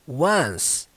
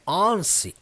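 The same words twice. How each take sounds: First: It sounds like the word 'one' plus s. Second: It is read the way it is written. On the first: The speaker calls it right. "Ela segue a pronúncia do número um" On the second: The speaker calls it wrong. "embora ela pareça que é once"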